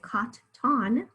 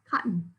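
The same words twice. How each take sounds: First: The second syllable has a full vowel. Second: The second syllable has a reduced schwa vowel. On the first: The speaker calls it wrong. "We don't say cotton" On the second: The speaker calls it right. "we say cotton"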